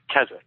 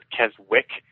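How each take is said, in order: First: The W in the middle is not pronounced. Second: The W in the middle is pronounced. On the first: The speaker calls it right. "It's Keswick" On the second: The speaker calls it wrong. "some people pronounce it Keswick because they don't know the W silent"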